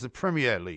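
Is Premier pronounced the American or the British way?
British. Premier is pronounced in a British way. The speaker calls it right. "would you mind just referring to it as"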